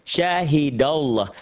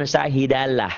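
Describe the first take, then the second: First: "Syahidallah" drawn out slowly, ending in a round "-lloh"; "Syahidallah" recited slowly, thick and rounded; thick Allah. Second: "syahidalah" with a light L and open A; wrong thin Allah. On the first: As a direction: say "Syahidallah" with heavy L and O-like vowel. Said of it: "jangan syahidalah". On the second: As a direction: say "syahidalah" thin, ending in plain "-lah". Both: Shown as a demonstration.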